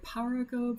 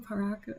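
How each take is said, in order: First: Paraco with a full open first syllable, PAH-rah-ko; alternative pronunciation. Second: Paraco with a reduced first syllable, puh-RAH-ko; alternative pronunciation. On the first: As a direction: say Paraco as PAR-ah-koh, trying it out. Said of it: "I still don't know. Is it". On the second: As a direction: say Paraco as per-AH-koh, softer, trying it out. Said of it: "Is it Paraco?". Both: Shown as a demonstration.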